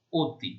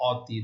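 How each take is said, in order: First: অতি with rounded "o" first, "O-ti"; closed o vowel. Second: অতি with open "aw" first vowel, "AW-ti". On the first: Teacher showing students the correct reading, অতি as closed "O-ti". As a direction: say অতি as "O-ti", closing the অ to ও. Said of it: "উচ্চারণ ও এর মতো". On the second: Teacher showing students the unwanted reading, অতি as open "AW-ti". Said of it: "অ এর উচ্চারণ যদি আমরা অ এর মতো করি". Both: Shown as a demonstration.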